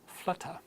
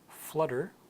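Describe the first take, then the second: First: The middle T is pronounced as a clear T. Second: The middle T sounds like a soft D.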